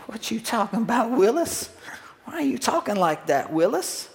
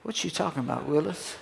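First: High-pitched mock-disbelieving catchphrase; Gary Coleman. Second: Soft Gary Coleman catchphrase under your breath; inner thought. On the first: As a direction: put on a high, swooping sitcom kid voice. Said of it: "and Gary would say". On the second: Acted. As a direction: think it aloud, much softer. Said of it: "on the inside I'm thinking".

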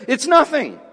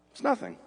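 First: It's nothing said louder, a bit higher, NOTHING punched with a falling tune; emphatic answer. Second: It's nothing dropped to a near-hushed, much softer voice, "nothing" falling away; hushed repeat. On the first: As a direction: land "nothing" hard like a verdict. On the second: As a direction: let "It's nothing" sink to a soft murmur. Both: Acted. Answer repeated, then hushed.

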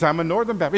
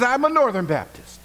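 First: Said in the usual way. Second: High, louder delighted squeal; thrilled to match again; excited echo. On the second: Retold or imitated. Rescuer squealing with joy at a fellow Northern Baptist.

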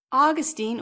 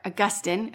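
First: "Augustine" said AW-guh-steen, stress on first syllable; "Augustine" with the first syllable AW stressed and ending -steen; pronunciation aw-GUS-teen. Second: "Augustine" said uh-GUS-tin, stress on second syllable; "Augustine" with a weak uh first, GUS stressed, ending -tin; alternate pronunciation. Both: Shown as a demonstration. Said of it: "however you want to pronounce him".

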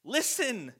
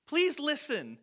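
First: Said in the usual way. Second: Please pitched much higher, begging to be heard; pleading. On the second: Shown as a demonstration. Jesus pleading with the crowd, please pitched high. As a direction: plead with them to hear it. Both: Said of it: "Meaning, like".

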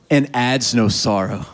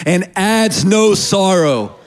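First: Said in the usual way. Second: Higher, slow and emphatic; loud emphatic call-out. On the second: Shown as a demonstration. Preacher has congregation repeat the last part, loud and emphatic. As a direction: lead the crowd in saying it loud. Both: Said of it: "Say that last part loud".

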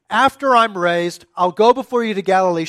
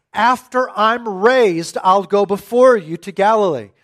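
First: Said in the usual way. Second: After I'm raised said very slowly, each word weighted; slow emphatic quote. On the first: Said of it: "the planting of that information". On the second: Shown as a demonstration. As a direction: lay out every word of the promise. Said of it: "He says".

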